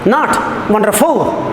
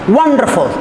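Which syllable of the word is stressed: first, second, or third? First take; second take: third; first. First: The stress is on the third syllable. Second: The stress is on the first syllable. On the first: The speaker calls it wrong. "the third syllable stressed" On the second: The speaker calls it right. "The first one is stressed, the next two are unstressed"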